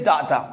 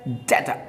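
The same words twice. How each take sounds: First: डाटा with long aa, daa-taa; wrong pronunciation. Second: डेटा as DAY-ta, ay in the first syllable; correct pronunciation. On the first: Teacher shows what people say, mistaken daa-taa. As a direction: open the first vowel of डाटा to aa. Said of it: "इसको डाटा नहीं बोला जाता". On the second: Teacher models the right sound for learners, DAY-ta. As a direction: say डेटा with ay, never aa. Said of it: "इसको बोला जाता है". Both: Shown as a demonstration.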